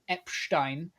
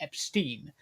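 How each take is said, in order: First: The name is given a German-like pronunciation. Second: The name is given a plain English pronunciation. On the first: The speaker calls it wrong. "Mister Corbyn's Germanic dictation" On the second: It treats the name as ordinary. The speaker calls it right. "as opposed to"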